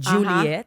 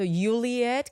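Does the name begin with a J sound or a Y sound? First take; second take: J sound; Y sound. First: The name begins with a J sound. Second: The name begins with a Y sound. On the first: This is how it is said in Colombia. The speaker calls it right. "In Colombia or Latin America, you say J" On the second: Someone reading the written spelling says it this way. The speaker calls it wrong. "when they see my health insurance card or whatever, they're like"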